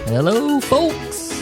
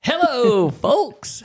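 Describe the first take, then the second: First: It is said with low, tired energy. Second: It is said with lively, high energy.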